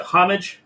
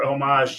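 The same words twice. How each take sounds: First: "homage" with a sounded H, HOM-ij; English pronunciation. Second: "homage" as oh-MAHZH, silent H; French-style pronunciation. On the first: Asking Jason which pronunciation, English "homage" as HOM-ij. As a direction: say "homage" as HOM-ij, stress up front. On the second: Asking Jason which pronunciation, French-style "homage" as oh-MAHZH. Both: Shown as a demonstration. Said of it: "Is it homage or homage".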